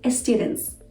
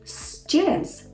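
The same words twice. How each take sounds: First: An extra e sound comes before the s. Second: It begins directly with the s sound. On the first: The speaker calls it wrong. "Please don't say students" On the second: The speaker calls it right. "Say students"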